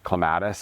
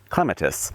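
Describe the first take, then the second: First: It is said with an American pronunciation. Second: It is said with a British pronunciation.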